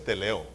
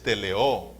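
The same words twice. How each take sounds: First: "teleo" with the stress on LE, last O weak; wrong stress. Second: "teleo" drawn out slowly, stress on the final O; stress on last syllable. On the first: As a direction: say "teleo" as te-LE-o, the mistaken way. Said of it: "no es teleo". ("teleo" con acento en la LE, mal dicho) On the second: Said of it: "con acento en la A". ("teleo" lento, con acento en la O final) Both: Shown as a demonstration.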